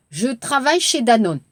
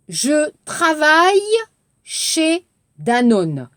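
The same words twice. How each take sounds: First: Brisk, natural speed; fast natural take. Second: Slow, carefully spaced model line; slow model sentence. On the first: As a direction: run it together quickly. (빠르게 자연스럽게 읽기) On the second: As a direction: say it slowly for the class. (천천히 또박또박 읽는 시범) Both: Shown as a demonstration. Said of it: "Regardez l'exercice".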